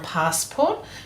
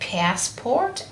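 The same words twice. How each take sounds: First: It is said in a British accent. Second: It is said in an American accent.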